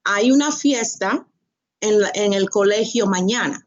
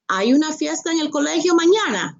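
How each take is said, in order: First: Said in the usual way. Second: Hay una fiesta en el colegio mañana said higher and quick as a question. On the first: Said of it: "You went from". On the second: Shown as a demonstration. Teacher showing how tone alone makes a question. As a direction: turn it into a question with your pitch. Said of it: "the tone is asking a question".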